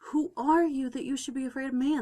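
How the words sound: It sounds warm and encouraging.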